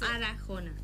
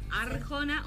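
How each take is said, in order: First: An extra a sounds between the r and j. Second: There is no vowel between the r and j. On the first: "con la A. O sea, después de la R" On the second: "sin la A"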